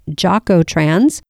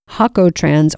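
First: The word begins with an English J sound. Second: The word begins with an H sound. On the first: "you might hear it pronounced Jocotrans" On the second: "The J in Spanish is often pronounced like an H"

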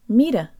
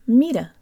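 No difference in how they are said.

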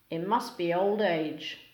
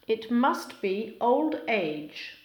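First: Sounds between words blend and change together. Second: Each word keeps its own separate sounds.

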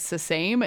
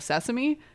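First: The ending is said like the word 'same'. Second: The ending is said the usual way. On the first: The speaker calls it wrong. "it was funny if I said sesame" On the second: The speaker calls it right. "instead of sesame"

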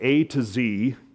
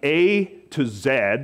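First: The letter Z is said the American way, 'zee'. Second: The letter Z is said the British way, 'zed'.

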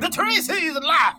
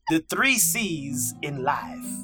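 First: It is said in a preaching pastor voice. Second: It is said in his normal speaking voice.

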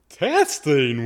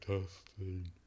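First: It is said in his regular voice. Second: It is said in a put-on deep voice.

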